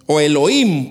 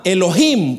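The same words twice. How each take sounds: First: "Elohim" with no h at all, e-lo-IM; Elohim, silent h. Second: "Elohim" with the h sounded as a rasped Spanish j, e-lo-JIM. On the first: Preacher showing the h is silent, "Elohim" without the h. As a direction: drop the h in "Elohim" and glide the vowels. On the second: Preacher to congregation, first take of "Elohim" with the h voiced. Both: Shown as a demonstration. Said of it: "porque la H no se pronuncia".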